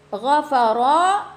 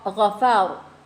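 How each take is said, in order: First: The word ends with a final vowel. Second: The word ends on a silent consonant. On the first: The reading continues on. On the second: The reading stops here.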